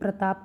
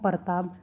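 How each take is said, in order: First: The opening consonant cluster is said together. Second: The opening consonant cluster is split by a vowel. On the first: The speaker calls it right. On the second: The speaker calls it wrong.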